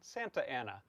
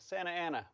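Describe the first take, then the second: First: The T in Santa is clearly pronounced. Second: The T in Santa is dropped. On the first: "but you can" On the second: "We don't pronounce the T"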